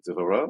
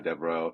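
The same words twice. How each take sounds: First: The surname is said in a fancier, non-American way. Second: The surname is said the plain American way. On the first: "That's a really fancy way of pronouncing it" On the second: "We'll go the American way"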